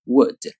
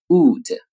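First: Wood with a short lax u. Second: Wood with a long tense oo. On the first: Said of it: "短音". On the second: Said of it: "长音". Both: Shown as a demonstration. Teacher contrasting long and short vowels.

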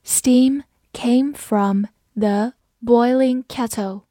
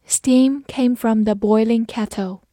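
First: Slow, word by word with clear gaps; slow, careful model reading; slow read-through. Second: Said in the usual way. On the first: Shown as a demonstration. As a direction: read it slowly for learners, each word separate. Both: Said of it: "我们慢慢来读".

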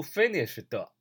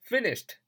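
First: "finished" with an extra "tuh" at the end; added final vowel. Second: "finished" ending in a light t, no vowel; clean final t. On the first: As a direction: wrongly sound a full vowel after the t of "finished". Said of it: "不读finished啊". ("finished"词尾多读出一个"特"音) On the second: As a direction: close "finished" on "sht" without an added syllable. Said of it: "读finished啊". ("finished"词尾轻收t，不加元音) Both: Shown as a demonstration.

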